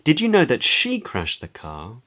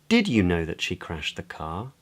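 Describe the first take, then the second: First: The word "she" carries the main stress. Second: The word "did" carries the main stress. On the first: It asks whether the listener is sure who was responsible. "Questions whether the other person is sure of who is responsible" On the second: It asks whether the listener knew of the event at all. "Questions whether the other person knew about the event at all"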